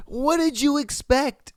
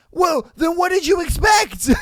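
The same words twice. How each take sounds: First: Said in the usual way. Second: Shouting high and loud in disbelief; outraged shout. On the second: Real, not acted. Host yelling at a cheater's excuse, outraged shout. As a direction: yell it like you can't believe the excuse.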